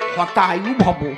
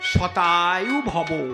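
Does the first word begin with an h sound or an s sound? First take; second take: h; s. First: The first word begins with an h sound. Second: The first word begins with an s sound. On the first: May you die soon. The speaker calls it wrong. "ঢাকাইয়া পণ্ডিত সউচ্চারণ হয় না" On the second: May you live a hundred years. The speaker calls it right. "তার সংস্কৃত কি শতায়ু ভব"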